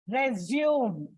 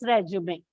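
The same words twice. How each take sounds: First: The final e is silent. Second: The final e is pronounced. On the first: The speaker calls it wrong. "You don't say resume" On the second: The speaker calls it right. "the actual pronunciation is resume"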